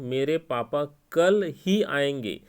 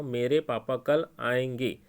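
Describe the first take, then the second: First: "कल ही" said slower and a touch louder, leaning on ही; stress on ही. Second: Said in the usual way. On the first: Shown as a demonstration. Teacher showing students how ही adds emphasis, stressing ही. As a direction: lean on the word ही to insist. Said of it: "जो मैंने ही शब्द का प्रयोग किया है". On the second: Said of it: "अब इसी को मैं ये कहता हूँ".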